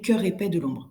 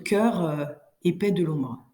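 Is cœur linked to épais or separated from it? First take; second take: linked; separated. First: Cœur runs straight into épais without a vowel. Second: An extra vowel follows cœur before épais. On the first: The speaker calls it right. "Il faut vraiment euh, en- enchaîner" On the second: The speaker calls it wrong. "Il faut absolument éviter de dire cœureux"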